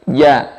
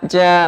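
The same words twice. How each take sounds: First: The j sound is smooth, from mid-tongue. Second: The j sound breaks apart. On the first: The speaker calls it right. "tapi ja dari tengah lidah" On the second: The speaker calls it wrong. "ja bukan"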